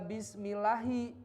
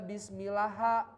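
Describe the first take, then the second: First: The word ends with an i vowel. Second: The word ends with an a vowel. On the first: The speaker calls it right. "kenapa dibaca bismillahi" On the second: The speaker calls it wrong. "nggak dibaca bismillaha"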